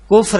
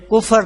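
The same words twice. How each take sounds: First: کفر said kufr, f and r joined with no vowel; کفر as one closed syllable, kufr; clipped کفر with no extra vowel; correct pronunciation. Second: کفر said kufar, an extra a before r; کفر split into two syllables, ku-far; mispronounced کفر with an added vowel; common wrong pronunciation. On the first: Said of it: "کفر ہے". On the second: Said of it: "کفر لفظ نہیں ہے". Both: Shown as a demonstration.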